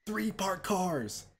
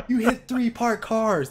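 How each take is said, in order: First: "Three parked cars" said slowly and softly, each word weighed; slow disbelief. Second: "You hit three parked cars" higher, louder and slow, stressed hard; loud disbelief. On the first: Speaker marveling at the crash to his friend, slow disbelief. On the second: Speaker mock-scolding the absent driver, loud disbelief. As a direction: hammer each word in outraged amazement. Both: Shown as a demonstration.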